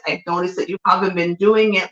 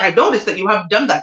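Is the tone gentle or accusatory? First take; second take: gentle; accusatory. First: It is said in a gentle, caring tone. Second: It is said in an accusing, hostile tone.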